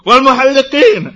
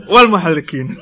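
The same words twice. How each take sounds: First: Loud, higher call of "Wal muhalliqin"; screamed plea. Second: Said in the usual way. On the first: Acted. A man shouting to the Prophet a third time, loud. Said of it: "the man screamed out a third time". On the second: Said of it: "And the Prophet said".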